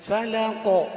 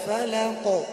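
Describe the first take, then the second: First: The final q sound ends with a slight bounce. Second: The final q sound ends with a slight bounce.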